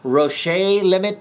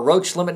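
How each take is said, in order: First: The name is pronounced with a French sound. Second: The name is pronounced with an English sound. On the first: "with French" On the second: "or not"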